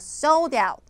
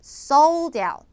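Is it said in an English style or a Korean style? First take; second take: English; English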